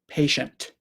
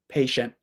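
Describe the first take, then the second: First: The final T is released with audible air. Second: The final T stops the air without release. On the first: This is how most British speakers say it. "the T will come down and the air will come out" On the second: This is how many American speakers say it. "the tongue just goes up and stops the air"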